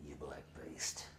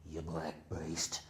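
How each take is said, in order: First: Low, voiceless menacing whisper; hissed whisper. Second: Slow, low, voiced threat; slow low menace. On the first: Retold or imitated. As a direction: breathe the insult out low. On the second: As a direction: drag out each word low. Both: Boss attacking the man.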